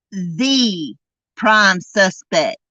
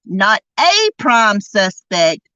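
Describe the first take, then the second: First: "the" in "the prime suspect" spoken slowly and weighed; stress on the. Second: "a" in "Not a prime suspect" set apart as the wrong article; stress on a. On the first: Correcting the mother's wording, "the" stressed as the right word. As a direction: make "the" land as the only one. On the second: Correcting the mother's wording, "a" stressed as wrong. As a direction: lean on "a" to dismiss it. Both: Shown as a demonstration. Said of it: "meaning she is the only".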